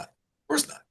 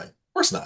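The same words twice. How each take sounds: First: Of course not jumped way up high; comic high-pitched denial; squeaky high. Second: Breathy whispered of course not; hushed aside. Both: Shown as a demonstration.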